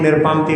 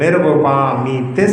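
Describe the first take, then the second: First: The word is clipped, dropping a syllable. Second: The word is said in full, every syllable clear. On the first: The speaker calls it wrong. "जब लोग जल्दी जल्दी पूजा करते हैं तो निर्पामती निर्पामती बोलते" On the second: The speaker calls it right. "ऐसा जो है उच्चारण"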